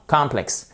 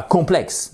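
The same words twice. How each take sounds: First: Complexe said as English complex, with an open first vowel; English pronunciation. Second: Complexe said the French way, with a nasal first vowel; French pronunciation. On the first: Teacher correcting students, English-sounding Complexe. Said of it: "Et pas complexe. Non". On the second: Teacher showing students the wrong way, French-sounding complexe. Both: Shown as a demonstration.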